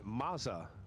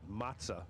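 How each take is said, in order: First: The middle consonant is a plain z sound. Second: The middle consonant is a ts sound.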